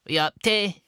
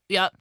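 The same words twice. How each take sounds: First: High, plummy mock posh English accent on Yup. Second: Said in the usual way. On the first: Imagining the goths will talk posh, in a high mock posh English accent. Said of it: "they're gonna speak posh". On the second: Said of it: "they all speak exactly the same".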